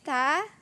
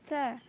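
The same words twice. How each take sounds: First: The vowel is said with the mouth fully open. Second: The vowel is said with the mouth half open. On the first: The speaker calls it right. "Kemudian ini bacaannya ta" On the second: The speaker calls it wrong. "Yang masih belum terbuka mulutnya, contoh yang salah"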